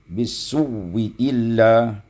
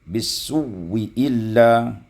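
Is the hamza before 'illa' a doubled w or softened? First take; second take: doubled w; doubled w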